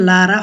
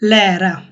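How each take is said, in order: First: The first vowel is a back 'ah' sound. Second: The first vowel is a front 'ae' sound. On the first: The speaker calls it wrong. "এখানে লারা হবে না" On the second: The speaker calls it right. "এটা হবে"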